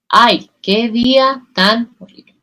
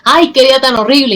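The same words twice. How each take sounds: First: The phrase is said calmly and softly. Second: The phrase is shouted loudly. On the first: The speaker calls it right. "Tranquila y suave" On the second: The speaker calls it wrong. "y te lo grito"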